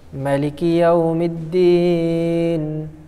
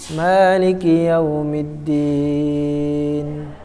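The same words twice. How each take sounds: First: The vowel after the m is short. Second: The vowel after the m is long. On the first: This is the reading of a few reciters. "membaca dengan mim pendek" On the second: This is the reading most reciters use. "Jadi mimnya panjang"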